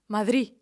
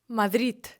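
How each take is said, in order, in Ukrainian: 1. Слово закінчується на голосний, без приголосного. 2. Слово закінчується звуком д. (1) "Взагалі не вимовляє звук д" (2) "вимовляють це слово як мадрід"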